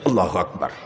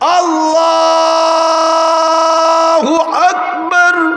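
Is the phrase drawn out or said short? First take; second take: short; drawn out. First: The phrase is said short and quick. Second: The phrase is drawn out slowly.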